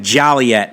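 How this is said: Joliet is said in a South Side Chicago way. "some real deep Southsiders pronouncing it"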